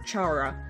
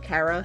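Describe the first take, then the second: First: The name does not start like 'character'. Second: The name starts with a hard K sound. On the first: "or Chara" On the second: "I'll be using the pronunciation Kara since it resembles the word character"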